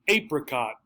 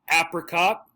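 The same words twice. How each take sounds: First: The first vowel is a long A sound. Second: The first vowel is a short a sound. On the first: "the long A sound" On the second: "Here's our ass sound again"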